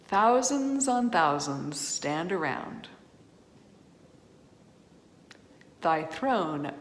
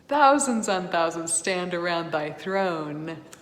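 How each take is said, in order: First: A breath pause comes right after 'stand around'. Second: No pause comes until after 'thy throne'. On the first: The crowd simply stands around, not around the throne. The speaker calls it wrong. "I'll say it the way they sang it when they weren't thinking about punctuation" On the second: The crowd stands around the throne. The speaker calls it right. "If we sang the poetry correctly, of course, we wouldn't pause there"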